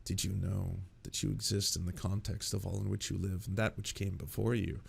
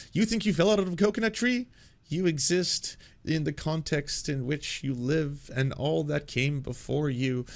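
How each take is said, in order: First: Low, hushed musing voice; philosophy obsessive. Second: Kamala Harris. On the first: Acted. Philosophy obsessive sitting there musing about context, low and quiet. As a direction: muse it softly and low, like an earnest philosopher. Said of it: "someone who's just, like, deeply, deeply obsessed with philosophy". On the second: Retold or imitated. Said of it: "hear her talking about".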